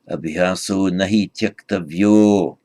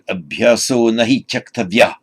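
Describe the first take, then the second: First: The last word ends with an 'o' sound. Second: The last word ends with an 'ah' sound. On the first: More words follow it in the verse. "in this verse you're going to see abhyaso nahi tyaktavyo" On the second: The phrase stands on its own. "on its own"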